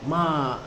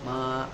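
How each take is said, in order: First: The pitch falls sharply from high. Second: The pitch stays high and level, held long. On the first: It means to scold. "nada tinggi petah" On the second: It means mother. "nada pertama itu yang suara datar tuh, yang suara tinggi, datar tapi panjang"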